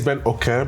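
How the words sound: The surname is said with Yoruba pronunciation. This is the original way to say the name. "technically it's Ben Okay because that's how the Yoruba way of saying it"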